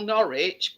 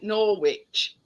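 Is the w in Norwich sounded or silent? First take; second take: silent; sounded. First: The w in the middle is silent. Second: The w in the middle is sounded. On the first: This is how the locals say the name. "we call Norwich" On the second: This is how visitors from abroad say the name. "you call it Norwich, which is actually the way it's spelled"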